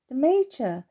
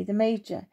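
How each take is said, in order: First: Pitched up in surprise; a puzzled echo, voice lifted; surprised question. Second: Said in the usual way. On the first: Acted. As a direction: ask it as if caught off guard. Timmy surprised at the news.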